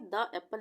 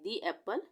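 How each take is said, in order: First: 'The' is said with a short 'thuh' vowel. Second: 'The' is said with a long 'thee' vowel. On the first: The speaker calls it wrong. "द एप्पल नहीं बोलेंगे" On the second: The speaker calls it right. "वहां पे हम दी का use करेंगे"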